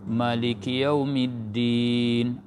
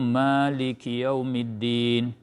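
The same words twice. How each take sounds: First: The first vowel of Maliki is short. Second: The first vowel of Maliki is long.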